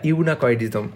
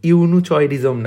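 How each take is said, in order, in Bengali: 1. মধ্যের ব্যঞ্জনধ্বনিটি 'k' ধ্বনি। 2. মধ্যের ব্যঞ্জনধ্বনিটি 'ch' ধ্বনি। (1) "এটা ইউনাকয়েডিজম" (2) "ইউনুচয়েডিজম না"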